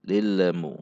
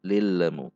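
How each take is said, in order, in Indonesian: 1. L memantul dengan vokal kecil. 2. L memantul dengan vokal kecil.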